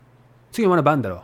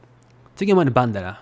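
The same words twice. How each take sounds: First: Quick standard Tokyo Japanese, ending on "だろ"; Tokyo dialect. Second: Quick Mikawa Japanese, "だろ" said as "dara"; Mikawa dialect. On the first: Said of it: "in Tokyo dialect is". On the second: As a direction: say it fast in hometown Mikawa dialect. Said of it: "Mikawa dialect is". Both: Shown as a demonstration.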